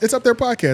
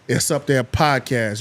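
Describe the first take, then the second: First: It is said plainly, without irony. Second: It is said with heavy irony.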